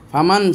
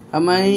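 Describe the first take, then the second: First: The n sound is said clearly at the end. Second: The n merges into y with a held nasal. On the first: "ফামান ছিল" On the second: "এই যে সময়টা নিলাম, এটাকেই বলা হয় গুন্না"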